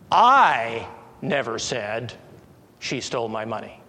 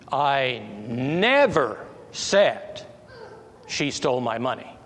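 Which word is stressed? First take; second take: I; never. First: The stress is on the word I. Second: The stress is on the word never. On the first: "I put the emphasis on I" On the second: "Let's put the emphasis on never"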